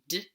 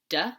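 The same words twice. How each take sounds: First: The consonant is clipped with no vowel after. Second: The consonant is followed by an 'uh' vowel. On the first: The speaker calls it right. "D should be D" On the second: The speaker calls it wrong. "instead of D"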